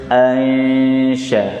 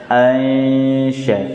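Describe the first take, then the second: No difference in how they are said.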